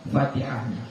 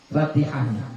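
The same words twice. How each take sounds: No difference in how they are said.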